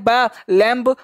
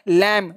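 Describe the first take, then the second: First: The final b sound is pronounced. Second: The final b sound is silent. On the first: The speaker calls it wrong. "बोलने के लैम्प बोल देते हैं" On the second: The speaker calls it right. "तो इसको क्या बोलेंगे?"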